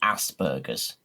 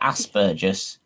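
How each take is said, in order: First: It is said with an American pronunciation. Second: It is said with a British pronunciation. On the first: The speaker calls it wrong. "the way it's said in America" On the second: The speaker calls it right. "We call it Aspergus"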